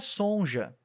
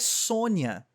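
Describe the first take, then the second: First: The middle consonant is said like a 'j'. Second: The middle consonant is said like a 'y'. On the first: The speaker calls it wrong. "não é Sonja" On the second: The speaker calls it right. "o J tem som de I. O nome dela é Sônia"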